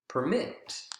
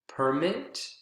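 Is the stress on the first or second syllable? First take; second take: second; first. First: The stress is on the second syllable. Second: The stress is on the first syllable. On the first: It is used as a verb. "Second syllable is the strongest in verbs" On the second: It is used as a noun. "first syllable is the strongest in nouns"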